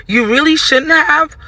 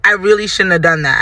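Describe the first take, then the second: First: High, drawn-out questioning retort; incredulous echo. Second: Said in the usual way. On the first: Retold or imitated. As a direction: throw it back slowly, rising in disbelief. Throws his admission back as question.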